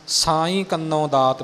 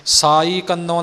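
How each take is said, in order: First: ਸਾਈਂ with a clear nasal ending; ਸਹੀ ਨਾਸਿਕ ਸਾਈਂ. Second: ਸਾਈ said without the nasal ending; ਗਲਤ ਸਾਈ ਬਿਨਾਂ ਨਾਸਿਕ; wrong, no nasal. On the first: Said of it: "ਬੋਲਣਾ ਹੈ". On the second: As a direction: drop the nasal on ਸਾਈ, the mistake. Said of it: "ਨਹੀਂ ਬੋਲਣਾ". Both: Shown as a demonstration.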